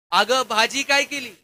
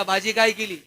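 First: Shouting in her ear. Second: Calling out. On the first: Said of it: "जोरात कानात ओरडला". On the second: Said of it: "यानं आवाज दिला". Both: Retold or imitated.

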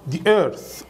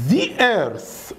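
First: "The earth" as "dee earth"; hard D plus ee in "The"; D pronunciation. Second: "The earth" as buzzed "zee earth"; full "thee" pronunciation. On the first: Teacher shows the spoken form, "dee earth" with D. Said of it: "بدل ذا وذي بيقولوها دا ودي". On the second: Teacher shows the vowel case, buzzed "thee earth". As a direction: buzz "The" with an ee vowel. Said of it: "مثال بقى على الكسر". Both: Shown as a demonstration.

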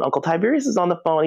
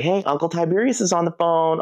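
First: Quick repeated call. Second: Sister calling out. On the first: Sister repeats the call, faster. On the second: Sister calling toddler's attention. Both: Retold or imitated.

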